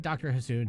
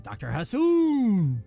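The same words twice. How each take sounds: First: It is said in a normal speaking voice. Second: It is shouted like a Street Fighter announcer.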